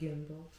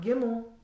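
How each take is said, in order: First: It is said as 'gimbal', with a b sound. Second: It is said like 'gimmel', like the Hebrew letter. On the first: The speaker calls it right. "but gimbal" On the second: The speaker calls it wrong. "not gimmel"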